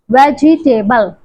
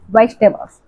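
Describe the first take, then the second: First: The word is said sounding out every spelled letter. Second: The word is said in its reduced natural form. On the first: The speaker calls it wrong. "Vegetable as the spelling" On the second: The speaker calls it right. "The correct pronunciation is vegetables"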